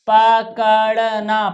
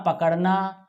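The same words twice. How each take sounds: First: पकड़ना split into slow syllables, pa-ka-ड़-na; teacher drawing out पकड़ना for children to repeat; slow syllable reading. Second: Said in the usual way. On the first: Shown as a demonstration. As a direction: read पकड़ना slowly, one syllable at a time.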